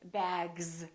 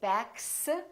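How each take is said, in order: First: The word ends with a buzzing z sound. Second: The word ends with a hissing s sound. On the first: The speaker calls it right. "we say bags. So the S is pronounced like a Z" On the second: The speaker calls it wrong. "we don't say"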